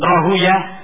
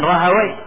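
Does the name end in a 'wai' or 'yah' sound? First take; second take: yah; wai. First: The name ends with a 'yah' sound. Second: The name ends with a 'wai' sound. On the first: This is the form the hadith scholars use. "ada sebagian menyebutkan Rahuyah" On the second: This is the other common way of saying it. "ada yang mengatakan Rahawai"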